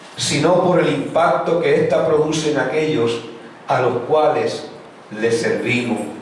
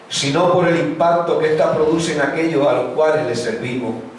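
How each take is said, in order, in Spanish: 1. La frase se dice más despacio. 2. La frase se dice rápido. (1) "lo voy a decir un poco más lento" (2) "lo dije muy rápido"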